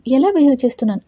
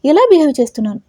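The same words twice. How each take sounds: First: A sharp, angry throw-back of the question; angry retort. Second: Louder, higher angry repeat; angry shout. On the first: Boss angrily throwing the assistant's question back. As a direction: snap the question back at him. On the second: Boss shouting the question again at his assistant. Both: A narrator's reading. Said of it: "కోపంగా అరుస్తూ అంటాడు".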